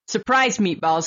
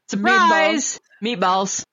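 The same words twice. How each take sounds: First: The stress falls on the word meatballs. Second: The stress falls on the word surprise. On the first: It suggests something hidden inside the meatballs. The speaker calls it wrong. "but it's not surprise meatballs, because that sounds like, hey, what's in the meatballs?" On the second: The unexpected part is the word meatballs itself. The speaker calls it right. "Like that. Like the emphasis on the surprise"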